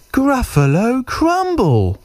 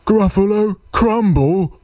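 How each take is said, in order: First: High, drawn-out mock threat falling at the end; tiny mouse savouring GRUFFALO CRUMBLE slowly; menacing little mouse. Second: High, startled echo rising at the end; alarmed monster question. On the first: Mouse names his favourite food, slow high threat. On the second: Acted. Gruffalo hears he will be eaten, high alarmed question. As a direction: monster squeaking in disbelief.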